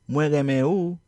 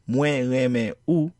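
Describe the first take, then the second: First: The words flow together without breaks. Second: The words are said separately, with breaks. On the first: The speaker calls it right. "then you were correct. Notice how the sound ou is pronounced as if it flows with the word that comes before it" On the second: The speaker calls it wrong. "If you did not pronounce this as"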